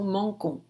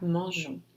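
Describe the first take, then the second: First: The consonant is a hard G sound. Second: The consonant is a soft J sound. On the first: The speaker calls it wrong. "para evitar ter esse som mangon" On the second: The speaker calls it right. "para que fica mangeons"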